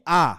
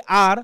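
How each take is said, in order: First: "আ" as an open ah, no R; imitated English r-less "আ"; native letter R. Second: "আর" with the final R sounded; local-style "আর", audible R; local letter R. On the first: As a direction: drop the R completely, just "আ". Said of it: "ওরা বলবে কি". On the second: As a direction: say "আর" the Bengali way, R pronounced. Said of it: "আমরা বলি কি". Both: Shown as a demonstration.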